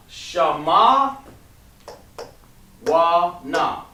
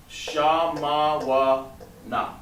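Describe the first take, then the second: First: Shama wa na called out clearly, a bit louder; clear model reading. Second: Shama wa na stretched out very slowly. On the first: Teacher modeling the word aloud for the class. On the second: Teacher dictating the word very slowly for students to write. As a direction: draw each syllable out for dictation. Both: Shown as a demonstration. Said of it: "Okay, so".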